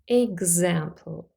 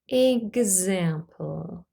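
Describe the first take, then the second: First: The word is said at normal speed. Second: The word is said slowly and drawn out.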